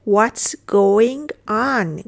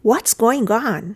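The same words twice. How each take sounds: First: Very slow, drawn-out words; deliberate teacher's demonstration; slow model repeat. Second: Said in the usual way. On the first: Shown as a demonstration. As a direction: stretch each word for learners. Teacher repeats phrase slowly.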